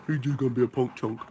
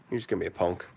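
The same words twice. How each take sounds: First: Playful talk to a dog; teasing pet talk. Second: Said in the usual way. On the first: Real, not acted. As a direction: tease the puppy in a pet-talk voice. Teasing his dog on the couch.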